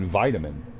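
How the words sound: It is said with an American pronunciation. "In America, we call it vitamin"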